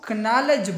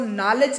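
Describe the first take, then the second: First: The k at the start is sounded. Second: The k at the start is silent. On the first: The speaker calls it wrong. "चाहिए तो ये कि हम इसको कनॉलेज बोल दें" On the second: The speaker calls it right. "लेकिन हम इसको नॉलेज बोलते हैं"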